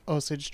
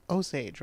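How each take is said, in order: First: "Osage" with a weak second syllable, like OH-sidge; mispronounced Osage. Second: "Osage" as OH-sayj, full second syllable; corrected Osage. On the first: Host stumbling over the trail's name, "Osage" as OH-sidge. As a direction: say "Osage" as OH-sidge, ending reduced. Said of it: "Nope, I didn't say that right". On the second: Host checking the trail's name with co-host, "Osage" as OH-sayj. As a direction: say "Osage" with a clear long A, OH-sayj. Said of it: "That's how they say it?". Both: Real, not acted.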